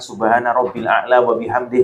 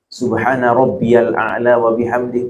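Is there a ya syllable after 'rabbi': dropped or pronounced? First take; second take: dropped; pronounced. First: Rabbi runs straight into al, with no ya syllable. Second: An added ya syllable is heard: rabbiyal. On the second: "boleh juga. Kok ada yaknya"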